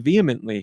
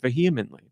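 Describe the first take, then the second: First: The middle h sound is silent. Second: The middle h sound is pronounced. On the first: This is how people say it locally. "We say vehemently here" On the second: This is the British way of saying it. "it's an H thing for the U K"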